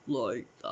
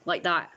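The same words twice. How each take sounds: First: Low, drawn-out demon imitation; demonic deep voice. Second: Said in the usual way. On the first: Showing how a teenager's voice sounded, deep demonic imitation. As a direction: sink your pitch for a mock demon. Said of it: "It was, like, demonic". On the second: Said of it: "I can't do it".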